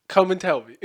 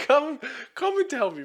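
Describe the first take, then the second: First: Said in the usual way. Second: Higher, egging the listener on; taunting dare. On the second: Real, not acted. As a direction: throw out the challenge with a grin.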